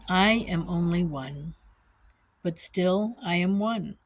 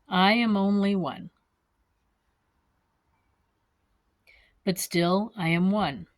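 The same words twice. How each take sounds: First: It is read at a normal, faster pace. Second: It is read slowly, phrase by phrase.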